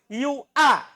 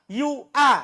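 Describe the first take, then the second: No difference in how they are said.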